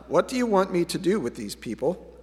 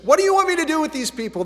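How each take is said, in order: First: The question is asked in a calm, even tone. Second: The question is asked in a desperate, exasperated tone. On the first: The speaker calls it wrong. "It's not" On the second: The speaker calls it right. "It's, ... They're about ready to stone me"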